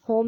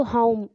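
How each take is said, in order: First: होम with a single flat vowel, no glide; plain-o pronunciation. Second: होम with an "au" glide in the middle; diphthong pronunciation. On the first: Teacher showing students how not to say it, pure-o pronunciation. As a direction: say होम as "hom", with one pure o. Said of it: "होम नहीं बोलते इसको". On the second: Teacher showing students how to say the word, gliding diphthong. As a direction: say होम as "haum", gliding from schwa to u. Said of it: "होम एक तरह से बोलते हैं". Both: Shown as a demonstration.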